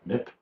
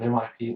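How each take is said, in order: First: It is said as a single word. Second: Each letter is said separately. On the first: "call them M I P" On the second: "using the letters"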